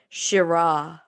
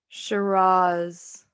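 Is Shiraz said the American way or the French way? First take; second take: French; American. First: The word is said with a French pronunciation. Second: The word is said with an American pronunciation. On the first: "But the French say Shiraz" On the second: "That's the American pronunciation"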